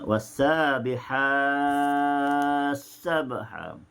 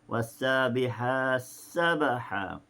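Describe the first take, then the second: First: The vowel before the merged s is held longest. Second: The vowel before the merged s is held shortest.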